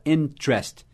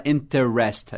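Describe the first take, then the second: First: Interest in two syllables, "IN-trest"; reduced pronunciation. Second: Interest with three syllables, "in-ter-REST"; spelled-out pronunciation. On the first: Teacher showing the natural form, interest as "IN-trest". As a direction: drop the first e in "interest". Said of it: "a gente fala interest". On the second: Teacher showing what is not said, interest as "in-ter-est". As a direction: sound the first e in "interest". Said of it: "a gente não fala interest". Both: Shown as a demonstration.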